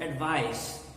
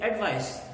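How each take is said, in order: First: Second ADVICE said as ad-VISE; second-syllable stress. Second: ADVICE stressed as AD-vice; first-syllable stress. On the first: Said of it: "the stress is on the second syllable". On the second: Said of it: "If it is a noun". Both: Shown as a demonstration.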